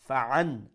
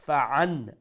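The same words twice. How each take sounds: First: The word ends with an n sound. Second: The same.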